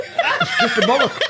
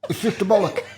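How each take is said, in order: First: Squeaky high giggle through words; cracking up mid-sentence; laughing. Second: Said in the usual way. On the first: Real, not acted. Repeats it again, cracking up.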